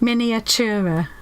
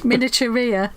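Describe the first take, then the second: First: The word ends without the 'ee' sound: -ura. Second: The word ends with an extra 'ee' sound: -uria. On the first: The speaker calls it right. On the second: The speaker calls it wrong. "So I'm saying it like that"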